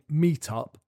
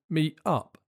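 First: The T in meet is clearly pronounced. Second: The T in meet is a glottal stop. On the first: "instead of saying meet up" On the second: "you'd say meet up"

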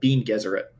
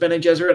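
First: The first word has one syllable, like bean. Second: The first word has two syllables. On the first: The speaker calls it wrong. "which I knew was completely wrong" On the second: The speaker calls it right. "I think I figured out that it was Bene Gesserit"

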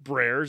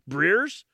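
First: The vowel sounds like the one in bear. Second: The vowel sounds like the one in beer. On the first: The speaker calls it wrong. "It's not Brares" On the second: The speaker calls it right. "it's like beer"

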